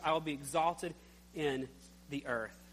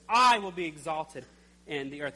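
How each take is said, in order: First: The word I is not specially stressed. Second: The word I is strongly stressed.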